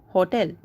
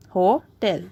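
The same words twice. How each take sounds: First: Said in the usual way. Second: "hotel" split as ho, tel; pause after O. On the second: Shown as a demonstration. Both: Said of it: "there is a pause after O".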